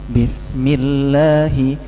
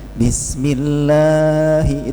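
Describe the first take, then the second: First: The vowel is kept short. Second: The vowel is drawn out too long. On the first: The speaker calls it right. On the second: The speaker calls it wrong.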